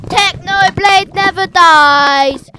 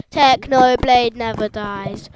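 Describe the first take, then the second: First: Loud, slow, higher chant; catchphrase shout. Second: Loud, slow chant; catchphrase yell. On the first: Fan chanting the Technoblade motto, shouting. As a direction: belt it out like a rally cry. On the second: Fan repeating the Technoblade motto, loud. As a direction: bellow it with the pitch level. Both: Real, not acted.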